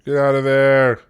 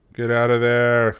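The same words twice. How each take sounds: First: Yelled urgent command; shouting orders over battle. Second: Said in the usual way. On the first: Real, not acted. Commanding troops in a siege.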